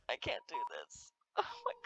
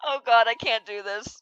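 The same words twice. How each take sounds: First: Much softer, trailing away; barely audible I can't do this; faded, defeated whisper. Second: Said in the usual way. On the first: Real, not acted. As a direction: give up under your breath. Overwhelmed by the scene.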